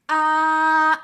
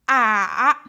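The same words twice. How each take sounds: First: The pitch stays level throughout. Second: The pitch falls, then rises. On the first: "The first tone is flight, no up or down" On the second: "go down and then go up"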